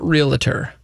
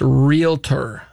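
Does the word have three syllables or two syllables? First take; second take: three; two. First: It has three syllables, real-a-tor. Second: It has two syllables, real and tor. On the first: The speaker calls it wrong. "There's no reala" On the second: The speaker calls it right. "It goes from real straight to tour"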